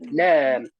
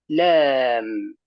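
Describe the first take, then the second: First: The word is said quickly, ending cut short. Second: The word is said slowly, ending fully sounded. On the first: The speaker calls it wrong. "تقولين لام، لام بسبب السرعة" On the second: The speaker calls it right. "بقراءة عادية وبعدم السرعة"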